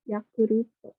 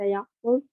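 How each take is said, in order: First: The word ends with an added vowel sound. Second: The word ends in a bare consonant sound. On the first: "nggak ada L jadinya pakai ru, ta menjadi to" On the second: "baca huruf mati nggak bisa Yakult gitu"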